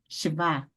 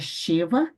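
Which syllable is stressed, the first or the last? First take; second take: last; first. First: The stress falls on the last syllable. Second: The stress falls on the first syllable. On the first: The speaker calls it right. "É no vá" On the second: The speaker calls it wrong. "Não é sheva"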